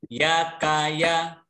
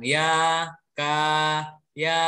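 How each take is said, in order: First: Each syllable is short, one beat each. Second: Each syllable is drawn out beyond one beat. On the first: The speaker calls it right. "Jadi satu ketukan, tidak boleh panjang" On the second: The speaker calls it wrong. "Itu sudah lebih dari satu ketukan. Sudah panjang hitungannya"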